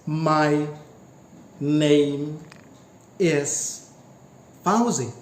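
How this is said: It has a pause between every word. It is four utterances. "there are four segments, there are four utterances"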